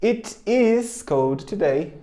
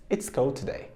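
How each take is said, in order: First: It is cold today, slow with it and is apart; teacher modelling the long form It is; full form, slow. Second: It's cold today, it's as one quick syllable; teacher modelling the contraction It's; contracted form. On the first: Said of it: "pode contrair". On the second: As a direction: clip It's cold today short and smooth. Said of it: "vai ficar it's". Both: Shown as a demonstration.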